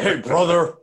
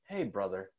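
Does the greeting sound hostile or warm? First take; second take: hostile; warm. First: The greeting sounds cold and hostile. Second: The greeting sounds warm and friendly. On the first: The speaker feels contempt for the listener. "they say it in a way that shows a level of hostility" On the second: The speaker feels affection for the listener. "It's not like an endearing"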